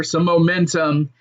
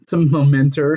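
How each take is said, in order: First: Said in the usual way. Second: "momentum" slipping into "momenter"; mispronounced momentum. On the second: Real, not acted. Podcaster stumbling over "momentum", ending it as "momenter". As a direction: end "momentum" in an -er sound. Slips on word, then corrects it.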